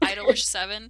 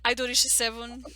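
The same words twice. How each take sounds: First: It is said with an English pronunciation. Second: It is said with a Japanese pronunciation. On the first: The speaker calls it wrong. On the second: The speaker calls it right.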